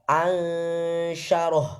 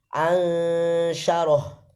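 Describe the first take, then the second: Both takes have the same delivery.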